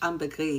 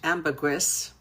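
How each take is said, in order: First: The word ends without any S sound. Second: The word ends with a clear S sound. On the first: This is the French pronunciation. "in French ambergris, you don't pronounce the S" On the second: This is the English pronunciation. "it's actually pronounced in English ambergris"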